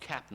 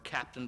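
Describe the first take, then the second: First: The word is said with its ending dropped. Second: The word is said with its full ending.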